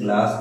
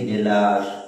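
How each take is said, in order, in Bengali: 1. প্রথম দুটি ব্যঞ্জন একটি যুক্তব্যঞ্জন গঠন করে। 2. একটি স্বরধ্বনি শুরুর যুক্তব্যঞ্জনটিকে ভেঙে দেয়।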